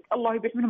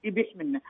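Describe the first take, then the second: First: Said in the usual way. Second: Quiet "يبيح منه" with the word الله dropped entirely; mother's clipped phrase. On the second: Retold or imitated. Caller imitating her elderly mother, who drops الله from "يبيح منه". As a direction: say only "يبيح منه", softly, with no الله before it. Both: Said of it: "ما تقدر تنطقها".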